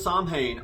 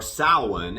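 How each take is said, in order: First: The name is said the way the band said it. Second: The name is said the traditional way. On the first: This is how the band's founder said the name. "that's not how [name] pronounced it" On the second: This is the proper pronunciation of the word. "as it is properly pronounced"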